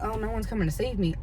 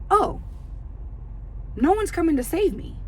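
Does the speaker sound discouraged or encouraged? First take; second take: discouraged; encouraged. First: It sounds hopeless and defeated. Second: It sounds hopeful and empowered. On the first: Nobody will rescue me, so I am lost. The speaker calls it wrong. "Instead of saying" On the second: Nobody will rescue me, so I can act myself. The speaker calls it right. "it encourages you that"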